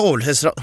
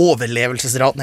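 First: "overlevelsesra-" garbled and broken off; tripping from haste. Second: "overlevelsesraten" with every syllable in place; careful retake. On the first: Engrossed storyteller rushing the key statistic, tongue-tripped "overlevelsesra-". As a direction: swallow the middle of "overlevelsesra-" and stop short. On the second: Storyteller correcting a rushed slip, careful full "overlevelsesraten". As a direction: say "overlevelsesraten" out in full after a chuckle. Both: Real, not acted. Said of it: "jeg prater så fort".

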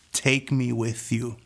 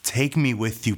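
First: Drawn-out, slow plea; slow pleading. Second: Said in the usual way. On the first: Retold or imitated. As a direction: stretch each word, begging. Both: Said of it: "And I said".

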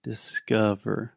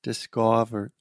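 First: "Discover" slow, middle uh schwa; schwa sound. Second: "discover" with open ah vowel; saying ahh. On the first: Shown as a demonstration. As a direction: say "Discover" as dis-kuh-ver slowly. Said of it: "this is the schwa sound". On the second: Retold or imitated. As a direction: imitate "discover" as dis-kah-ver. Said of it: "she is saying ah".

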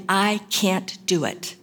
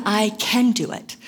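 First: Slow, with "can't" held long; stress on can't. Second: "I" lifted and leaned on; stress on I. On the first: Preacher naming the doubting camp, stress on "can't". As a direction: drag out "can't" in "I can't do it". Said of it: "with the emphasis on the can't". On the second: Preacher naming the self-reliant camp, stress on "I". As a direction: start strong on "I" in "I can do it". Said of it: "with the emphasis on the I". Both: Shown as a demonstration.

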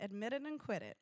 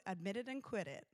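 First: Put-on a light American accent on "Admit it and quit it"; pastor's American accent. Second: Said in the usual way. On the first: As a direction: quote the old pastor in a mild American accent. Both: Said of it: "in his American accent".

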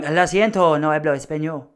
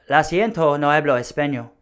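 First: Light put-on Spanish twang; a touch of Spanish accent. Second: Said in the usual way. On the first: Shown as a demonstration. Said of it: "a twang". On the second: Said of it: "if you say it with enough".

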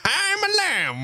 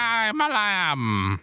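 First: Very high, slow, bleating lamb voice. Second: High, slow bleating lamb voice. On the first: Copying his cohost's lamb, a much higher bleat. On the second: Answering how to do a lamb, a slow, high bleating voice. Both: Shown as a demonstration. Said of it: "How do you do an impression of a lamb?".

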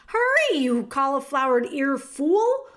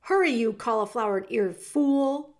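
First: Shouted. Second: Restrained shout. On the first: Cook repeats the order to Meg, yelling louder. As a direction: yell HURRY, then hurl the insult. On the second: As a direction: hurry someone along with a mild shout. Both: A narrator's reading. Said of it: "shouted the cook".

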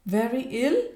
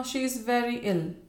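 First: High, startled echoing question; startled, rising query; alarmed exclamation. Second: Higher-pitched, mildly tremulous statement; understated tremble; trembling. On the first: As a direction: exclaim it in shocked disbelief. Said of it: "exclaimed Bella". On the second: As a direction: break the bad news anxiously. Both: A narrator's reading.

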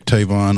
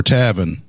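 First: Said in the usual way. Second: Tavin with a short a, as in "have"; local pronunciation. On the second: Real, not acted. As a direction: say Tavin like "TAV-in", stress first. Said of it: "as they pronounce it".

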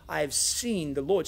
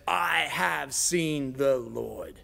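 First: Said in the usual way. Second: Very slow, every word weighed; solemn declaration. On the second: A narrator's reading. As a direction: draw out each word like a testimony. Mary declaring to the disciples.

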